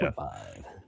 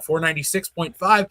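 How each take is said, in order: First: It is said in a booming radio announcer voice. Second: It is said in a plain speaking voice.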